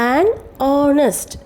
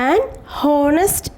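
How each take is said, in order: First: Honest begins with a vowel sound. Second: Honest begins with an h sound. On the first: The speaker calls it right. "ഓ എന്നാണ് ഇവിടെ starting സൗണ്ടേ വന്നിരിക്കുന്നത്" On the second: The speaker calls it wrong. "എന്നല്ല ഇവിടെ pronounce ചെയ്തിരിക്കുന്നത്"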